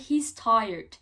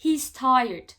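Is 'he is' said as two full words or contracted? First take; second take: contracted; contracted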